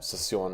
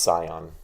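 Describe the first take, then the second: First: The name is said with French pronunciation. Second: The name is said with American pronunciation. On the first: This is the proper native pronunciation. "the way you're supposed to pronounce it" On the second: This is an anglicized pronunciation. "as an American pronouncing a French name"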